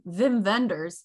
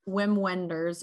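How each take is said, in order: First: The name is said with a German pronunciation. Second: The name is said with an English pronunciation. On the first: "or if you're German" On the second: "His name is"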